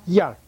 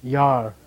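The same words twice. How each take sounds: First: Yar short and strong, pitched up. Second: Yar said long in a low tone. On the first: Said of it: "Okay, stronger". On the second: Teacher reminds students of the low tone, low-toned Yar. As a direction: keep Yar low and drawn out. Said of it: "Low tone, remember?". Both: Shown as a demonstration.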